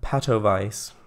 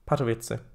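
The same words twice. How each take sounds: First: The name is said with an American accent. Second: The name is said without an American accent.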